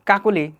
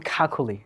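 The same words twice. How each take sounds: First: "কাকুলি" with plain k sounds, no puff; unaspirated k. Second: "খাকুলি" with puffs of air on the k sounds; aspirated kh. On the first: Teacher gives the local name, plain k in "কাকুলি". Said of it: "যার নাম কাকুলি". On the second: Teacher shows native speaker's version, aspirated "খাকুলি". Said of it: "তাকে বলবে খাকুলি". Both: Shown as a demonstration.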